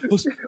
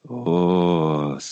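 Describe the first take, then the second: First: It is said in a timid, fearful way. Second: It is said in a quiet, inward, reflective way. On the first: The speaker is afraid. "If you're scared, you're like" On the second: The speaker is deep in introspection. "if you're like in huge introspection, you're like"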